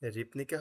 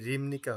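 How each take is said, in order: First: The consonant before 'nika' is a plain p. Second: The consonant before 'nika' is a nasal m. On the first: The speaker calls it wrong. "রিপনিকা হবে নাকি রিমনিকা হবে?" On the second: The speaker calls it right. "Very good"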